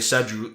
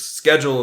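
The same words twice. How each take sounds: First: It is said with a British pronunciation. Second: It is said with an American pronunciation. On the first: "the British on T V, yeah, they will say" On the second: "according to U S English"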